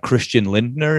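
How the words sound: The name is said with English pronunciation.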